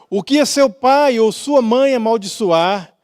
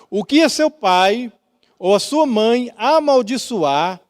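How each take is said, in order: First: It is read at a normal pace. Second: It is read slowly with pauses.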